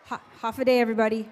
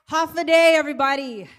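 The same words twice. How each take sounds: First: Said in the usual way. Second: Loud greeting. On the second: Real, not acted. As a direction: rouse the crowd with a big Håfa adai. Greeting crowd, repeated louder.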